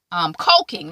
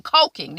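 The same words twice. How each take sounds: First: "coking" with a long o, like coke; "coking" rhymes with joking. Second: "coking" with a long o, like coke; "coking" said again, clearly as in cocaine; "coking" rhymes with joking. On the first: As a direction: say "coking" as in cocaine, not cooking. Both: Shown as a demonstration. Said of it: "not cooking".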